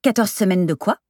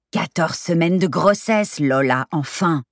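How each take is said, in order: First: "Quatorze semaines de quoi" asked higher, rising at the end; casual clueless question rising on "quoi"; innocent question. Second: "grossesse" stressed and drawn out slowly; slow insistence on "grossesse", falling on "enfin"; exasperated clarification. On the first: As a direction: ask "de quoi" lightly, with a questioning lift. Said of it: "demanda Lola le plus naturellement du monde". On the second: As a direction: spell it out slowly, leaning on "grossesse". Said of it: "précisa Carmen". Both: A narrator's reading.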